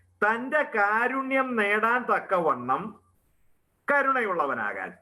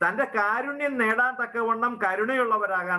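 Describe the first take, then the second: First: It is said slowly. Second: It is said at normal speed.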